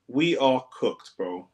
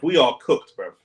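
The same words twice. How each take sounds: First: Slow, defeated drawl; slow drawn-out despair. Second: Loud despair. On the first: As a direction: stretch each word out, beaten. Repeats slowly after louder take. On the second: Despair after conceding. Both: Real, not acted.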